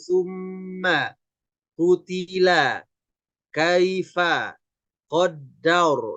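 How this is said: The words are said one by one, separated. "boleh dieja satu-satu"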